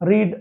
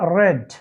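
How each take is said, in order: First: The vowel is long, like in 'reed'. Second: The vowel is short, like in 'red'. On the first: It is the present form of the verb. "এখানে রিড উচ্চারণ" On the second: It is the past participle form of the verb. "থার্ড ফর্মের ভার্বের রেড"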